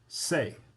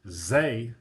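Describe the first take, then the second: First: It begins with a voiceless, hissing s sound. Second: It begins with a voiced, buzzing z sound. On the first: The speaker calls it right. "I say say" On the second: The speaker calls it wrong. "I don't say zay"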